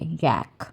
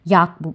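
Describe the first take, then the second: First: The vowel is a front 'a' like cat. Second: The vowel is an open 'ah' sound. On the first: The speaker calls it right. "इसको actually pronounce कैसे करते हैं यैक करके" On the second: The speaker calls it wrong. "आम लोग अक्सर हम लोग जो हैं याक पुकारते हैं इसको"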